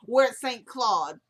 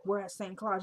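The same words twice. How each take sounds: First: Slow, loud, careful "Saint Claude"; deliberate redo, "Saint Claude" spelled out clearly with an aw; corrected pronunciation. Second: "Claude" with an open ah, like "clod"; unsure "Claude", said with an ah vowel; fumbled pronunciation. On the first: Shown as a demonstration. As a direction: enunciate "Claude" with a rounded aw vowel. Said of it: "my speech person should have been on deck". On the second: Real, not acted. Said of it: "embarrassed myself like that".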